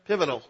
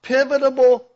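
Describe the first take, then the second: First: Pivotal said cleanly, without the extra syllable; corrected word. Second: Pivotable said with an extra syllable, the wrong way; mispronounced word. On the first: Shown as a demonstration. Preacher finally gets the word right, relieved. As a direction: land pivotal properly. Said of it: "There you go". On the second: Real, not acted. Preacher fumbles the word before correcting it, stumbling. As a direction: say pivotable, tripping on it.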